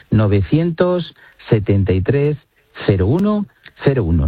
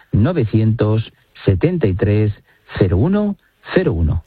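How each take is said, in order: First: Said in the usual way. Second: Slow, evenly spaced digits; slowly repeated number. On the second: Shown as a demonstration. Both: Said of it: "Lo repito despacito".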